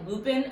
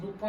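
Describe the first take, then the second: First: "Lupin" said as spelled, LOO-pin; spelling pronunciation. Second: "Lupin" as loo-PAN, nasal French ending; French pronunciation. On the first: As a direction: say "Lupin" the English way, ending in a clear "pin". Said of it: "it's spelled out like". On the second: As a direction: say "Lupin" the French way, no hard final n. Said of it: "it's actually pronounced Lupin". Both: Shown as a demonstration.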